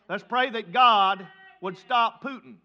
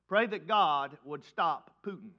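First: It is said louder, with more force. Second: It is said at normal, quieter volume.

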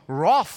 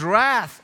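First: It is said with an English accent. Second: It is said with an American accent.

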